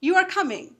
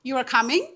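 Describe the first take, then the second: First: The voice falls at the end. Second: The voice rises at the end. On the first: It is a statement. "এটা sentence বা এটা ষ্টেটমেণ্টৰ নিচিনা শুনিলে" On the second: It is a question. "মই সুৰটো ওপৰলৈ কৰি দিলোঁ দ্বিতীয় ষ্টেটমেণ্টটোত"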